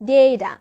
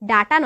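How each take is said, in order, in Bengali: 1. প্রথম স্বরধ্বনিটি একটি 'ay' ধ্বনি। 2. প্রথম স্বরধ্বনিটি একটি খোলা 'ah' ধ্বনি। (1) "আমরা উচ্চারণ করব ডেটা" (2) "ডাটা নয়"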